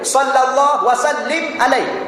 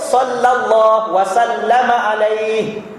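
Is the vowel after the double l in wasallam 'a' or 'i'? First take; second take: i; a. First: The doubled l is followed by an i vowel. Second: The doubled l is followed by an a vowel. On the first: The speaker calls it wrong. "yang lam baris bawah, yang tu dah dikira salah" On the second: The speaker calls it right. "Yang betulnya"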